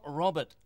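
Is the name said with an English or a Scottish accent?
English. The name is said with a plain English accent. The speaker calls it wrong. "It's not Robert"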